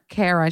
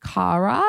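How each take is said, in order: First: Kara said with an "air" first vowel; Kara like "care-uh", as the other option; American pronunciation. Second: Kara said with an "ah" first vowel; Kara like "car-uh", pitched up in a question; open-vowel pronunciation. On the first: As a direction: say Kara as KAIR-uh. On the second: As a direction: say Kara as KAH-ruh. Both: Shown as a demonstration. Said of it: "Is it Kara or Kara?".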